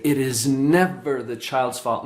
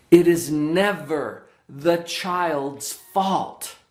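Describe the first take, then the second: First: Lower-pitched, measured stress on "never"; retold emphasis. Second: "never" drawn out slowly for emphasis; emphatic. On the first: Counselor telling kids in the office, measured emphasis on "never". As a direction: quote it low, leaning on "never". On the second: Real, not acted. Counselor stating what children need to know, slow emphasis on "never". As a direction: stress "never" in a very slow, deliberate statement. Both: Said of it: "I really emphasize that".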